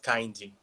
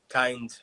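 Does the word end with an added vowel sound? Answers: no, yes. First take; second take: yes; no. First: The word ends with an added i vowel. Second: The word ends cleanly on the d sound. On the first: The speaker calls it wrong. "not kind" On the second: The speaker calls it right.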